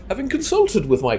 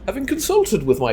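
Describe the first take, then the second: First: It is read in an affected, upper-class voice. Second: The same.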